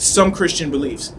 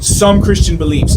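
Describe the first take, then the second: First: Said in the usual way. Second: "some" punched firmly and a bit louder; stress on some. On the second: Shown as a demonstration. Speaker stressing that only "some" Christians believe this. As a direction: lean hard on "some" to limit the claim. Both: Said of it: "I have to make sure that I put emphasis on that".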